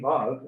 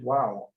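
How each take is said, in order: First: The word begins and ends with a V sound. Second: The word begins and ends with a W sound. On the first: "pronounced like a V in some by some people" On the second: "as a W by others"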